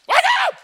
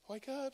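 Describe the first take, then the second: First: It is said forcefully and loudly. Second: It is said gently and softly.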